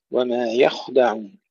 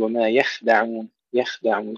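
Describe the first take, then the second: First: يخدعون with a light ya and a heavy kha. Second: يخدعون with a light thin kha, the error; thin kha mistake. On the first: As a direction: recite يخدعون with the kha thick. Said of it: "فنرقق الياء ونفخم الخاء". (يخدعون بترقيق الياء وتفخيم الخاء) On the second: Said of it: "يرققون الخاء الساكنة". (يخدعون بترقيق الخاء خطأً) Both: Shown as a demonstration.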